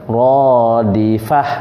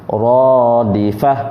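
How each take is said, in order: The two takes are said the same way.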